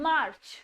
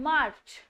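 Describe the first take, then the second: Both takes have the same delivery.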